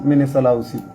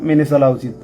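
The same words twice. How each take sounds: Both takes have the same delivery.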